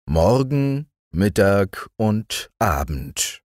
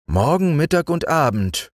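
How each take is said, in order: First: Slow, wistful narrator; slow narration. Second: Lightly high beetle voice; musing beetle. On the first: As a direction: let the words linger. Narrator slowing. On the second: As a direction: mull over the words as the beetle. Beetle repeating. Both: A narrator's reading.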